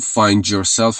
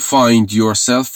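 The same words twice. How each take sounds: First: The d and y merge into a j sound. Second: The d and y sounds stay separate.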